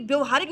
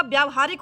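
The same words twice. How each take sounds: First: व्यवहारिक with short first vowel, vya-vahaarik; short-vowelled व्यवहारिक; wrong form shown. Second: व्यावहारिक with long vyaa at the start; long-vowelled vyaa-vahaarik for व्यावहारिक; correct form shown. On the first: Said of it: "व्यवहारिक नहीं होगा". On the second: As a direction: stretch the first aa of व्यावहारिक. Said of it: "आकर डंडा लगाते हैं". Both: Shown as a demonstration.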